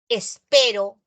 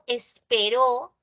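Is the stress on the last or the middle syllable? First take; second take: middle; last. First: The stress is on the middle syllable. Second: The stress is on the last syllable. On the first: I am waiting now. "esta palabra es grave" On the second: Someone waited in the past. "acá es una palabra aguda"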